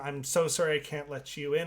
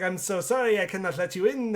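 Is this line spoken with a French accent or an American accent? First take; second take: American; French. First: It is spoken in a plain American accent. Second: It is spoken in a French accent. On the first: The speaker calls it wrong. "oh wait, no, she's French" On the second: The speaker calls it right. "I'm doing like a Marion Cotillard voice"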